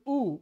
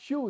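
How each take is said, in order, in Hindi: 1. यह बिना किसी ग्लाइड वाला शुद्ध स्वर है: oo। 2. इसकी शुरुआत y के ग्लाइड से होती है: yoo। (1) "दिस इज ऊ" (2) "so this is not यू"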